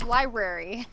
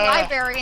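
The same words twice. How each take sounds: First: Every sound of the word is pronounced. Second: Some sounds of the word are dropped. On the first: The speaker calls it right. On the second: The speaker calls it wrong.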